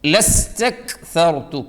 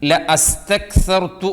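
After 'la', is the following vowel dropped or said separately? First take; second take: dropped; separate. First: La joins straight onto the next syllable. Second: A separate vowel is said after la. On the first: The speaker calls it right. "ലാമിന് ശേഷം ഹംസത്തുൽ വസ്സലാണ്" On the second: The speaker calls it wrong. "ഓതുന്നവരുണ്ട്, ഓതരുത്"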